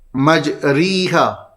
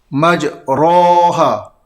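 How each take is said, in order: First: The vowel after r is a close i. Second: The vowel after r is an open a. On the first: "kalau kasrah" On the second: "berbaris fathah"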